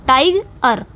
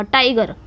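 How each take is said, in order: First: tiger split slowly as टाइग, then अर; broken into syllables. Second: tiger in one go, अर passed over quickly; weight on टाइ, let गर fall away; stressed टाइग, quick अर. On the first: Teacher breaking the word up for students, slow split tiger. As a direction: break tiger in two with a gap before अर. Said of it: "अगर इसको हम तोड़े ना". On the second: Teacher showing the unstressed ending, tiger said whole. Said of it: "अर को हमने जल्दी से बोल दिया". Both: Shown as a demonstration.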